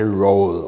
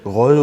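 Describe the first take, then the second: First: The name is said with an English pronunciation. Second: The name is said with a French pronunciation. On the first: "In English, people often say roll" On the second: "would be the correct one"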